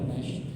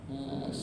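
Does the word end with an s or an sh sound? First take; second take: sh; s. First: The word ends with a thick sh sound. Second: The word ends with a thin s sound. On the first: The speaker calls it wrong. "bukan nash" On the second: The speaker calls it right. "Dia bukan shin tapi sin"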